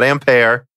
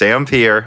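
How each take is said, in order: First: The word is pronounced the French way. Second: The word is pronounced the English way. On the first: The speaker calls it wrong. "It's not Ampere" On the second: The speaker calls it right. "I'm saying Ampere correctly because ... the English spelling of the unit Ampere ... does not have the accent mark"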